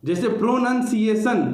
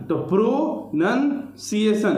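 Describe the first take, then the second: First: Said in the usual way. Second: प्रोनंसिएशन slowly in three parts, प्रो, नन, सिएशन; syllable by syllable. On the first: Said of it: "तीनों को club करके बोला जाता है". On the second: Shown as a demonstration. Teacher showing students the syllables of प्रोनंसिएशन, slow and spaced. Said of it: "तो प्रो अलग है, नन अलग है".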